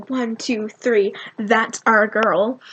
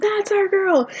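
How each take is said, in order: First: Said in the usual way. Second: High-pitched cheer at normal volume; mock scream. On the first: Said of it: "we had this plan that we'd go". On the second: Fans greet Colleen at the meet and greet, mock scream. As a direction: act out screaming fans without full volume. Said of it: "And we all screamed".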